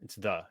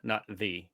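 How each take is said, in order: First: The vowel is a short 'uh' sound. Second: The vowel is a long 'ee' sound. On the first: This is the casual American way. "it's T H U ... because we're American" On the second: This is the proper way. "because we're not proper"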